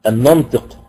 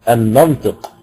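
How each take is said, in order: The two takes are said the same way.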